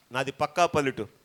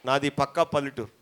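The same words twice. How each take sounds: The two takes are said the same way.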